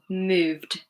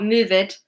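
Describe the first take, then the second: First: It is said as one syllable ending in d. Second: It is said as two syllables ending in id. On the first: The speaker calls it right. "it's d. One syllable" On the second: The speaker calls it wrong. "Not move it"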